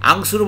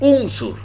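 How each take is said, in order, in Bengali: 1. শব্দটি a স্বরধ্বনি দিয়ে শুরু হয়। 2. শব্দটি u স্বরধ্বনি দিয়ে শুরু হয়। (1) "আংসুর বলতে পারবেন না" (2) "এখানে আপনাকে বলতে হবে উংসুর"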